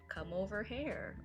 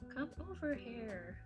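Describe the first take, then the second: First: The last word is pronounced like 'hair'. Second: The last word is pronounced like 'here'.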